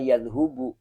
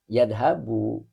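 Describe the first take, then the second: First: The vowel after 'dh' is u. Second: The vowel after 'dh' is a. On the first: The speaker calls it wrong. "tidak boleh juga" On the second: The speaker calls it right. "Karena di kamusnya garisnya di atas. Fathah"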